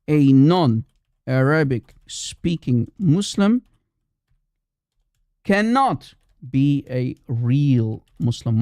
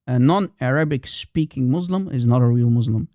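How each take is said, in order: First: Very slow, every word set apart; slow emphatic repetition. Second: Said in the usual way. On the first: Real, not acted. Repeats it slowly for emphasis.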